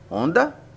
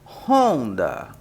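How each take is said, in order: First: The word starts directly with a vowel. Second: The word starts with a rough h sound. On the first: The speaker calls it wrong. "Não" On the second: The speaker calls it right. "O H tem som de R"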